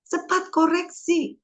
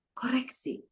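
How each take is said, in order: First: "cepat koreksi" said high and slow, leaning on "koreksi"; emphasis on koreksi. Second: "Koreksi" breathed as a whisper; soft unvoiced "Koreksi". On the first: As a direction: press hard on "koreksi" like a teacher's main point. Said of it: "emphatic teaching point". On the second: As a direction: repeat "Koreksi" in a hushed whisper to let it sink in. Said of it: "whispered repeat of key word". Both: Shown as a demonstration.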